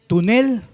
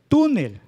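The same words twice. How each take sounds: First: "Tunel" said wrongly as tu-NEL; high, punched NEL in "Tunel"; stress on last syllable. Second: "túnel" as TÚ-nel; stress on first syllable. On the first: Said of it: "Si pronunciamos fuerte la última sílaba". ("Tunel" con fuerza en la última, nel) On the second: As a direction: punch the TÚ of "túnel", let nel fall. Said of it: "La sílaba tónica o la sílaba fuerte es la grave". ("túnel" con fuerza en la primera, tú) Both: Shown as a demonstration.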